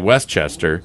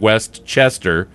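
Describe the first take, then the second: First: The stress falls on West. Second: The stress falls on Chester.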